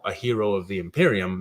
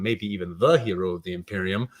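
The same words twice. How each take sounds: First: Said in the usual way. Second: "the" stressed as the one and only. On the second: Real, not acted. Streamer upgrading a hero to the top one, stress on "the". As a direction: lean on "the" before "hero".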